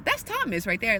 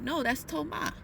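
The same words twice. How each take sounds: First: Said in the usual way. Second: "Thomas" said the French way, toh-MAH, no s. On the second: Retold or imitated. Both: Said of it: "the way the names are said is completely different".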